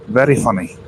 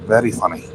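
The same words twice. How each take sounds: First: Sarcastic. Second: Softer, flatter repeat; deadpan, lower and quieter; quiet dry sarcasm. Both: Real, not acted.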